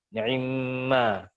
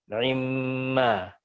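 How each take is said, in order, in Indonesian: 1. Ain membawa vokal yang sangat cepat dan terpotong. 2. Ain membawa vokal yang sangat cepat dan terpotong.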